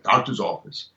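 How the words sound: It is said warmly, with a smile.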